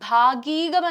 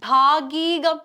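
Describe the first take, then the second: No difference in how they are said.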